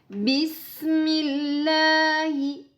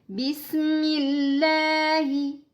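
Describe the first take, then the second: No difference in how they are said.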